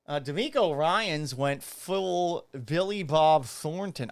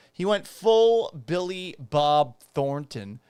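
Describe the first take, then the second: First: Talking around a cigarette; cigarette in mouth. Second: Said in the usual way. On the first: Real, not acted. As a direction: lips clamped on a cigarette. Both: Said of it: "I can't talk with this, this fake cigarette in my mouth".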